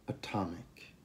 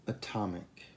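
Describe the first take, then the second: Both takes have the same delivery.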